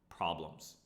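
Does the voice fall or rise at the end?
fall. The pitch falls at the end. It states that there is a problem.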